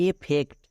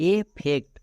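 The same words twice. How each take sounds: Both takes have the same delivery.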